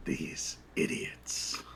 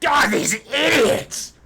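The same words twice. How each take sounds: First: Low, slow, unvoiced menacing whisper; menacing Jack. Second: High, loud, slow furious screech; screaming halfling. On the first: Jack looming behind the halfling, low menacing whisper. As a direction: breathe it coldly right behind him. Jack mocking the boss's words. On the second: Acted. Halfling boss screaming at workers over the fire, furious high shout. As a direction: rage at his useless workers at full volume. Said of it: "just screaming".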